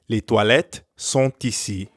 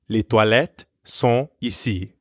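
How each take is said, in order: First: The t of sont links into ici. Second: The t of sont is silent before ici. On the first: "And then with the liaison" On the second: "Without the liaison"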